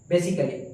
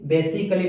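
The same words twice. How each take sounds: First: The vowel before 'lly' is silent. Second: The vowel before 'lly' is pronounced. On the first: The speaker calls it right. "बेसिकली pronounce करिए" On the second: The speaker calls it wrong. "बेसिकली नहीं"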